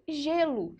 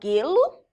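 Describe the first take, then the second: First: It begins with a soft zh sound. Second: It begins with a hard G sound. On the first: The speaker calls it right. "É gelo. ... fica com o som como se fosse J" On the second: The speaker calls it wrong. "você fala gelo? Não"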